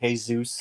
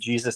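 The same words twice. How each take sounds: First: The name starts with an H sound. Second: The name starts with a J sound. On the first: "they say" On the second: "instead of saying"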